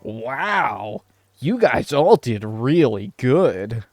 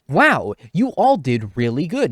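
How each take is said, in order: First: It is said in a mocking, sarcastic tone. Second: It is said in a plain, sincere tone.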